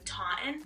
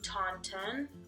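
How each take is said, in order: First: The middle T sound is dropped. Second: The middle T sound is clearly pronounced. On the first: "there's a T in there that we don't pronounce" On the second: "it should be Taunton or something like that"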